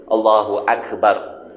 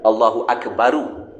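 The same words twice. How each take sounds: First: Akbar ending on a stopped r with no vowel; Allahu Akbar, final r silenced. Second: Akbaru with a short u added after the r; Allahu Akbaru, vowel after r. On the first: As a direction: clip the r of Akbar dead. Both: Shown as a demonstration. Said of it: "Sepatutnya Allahu Akbaru".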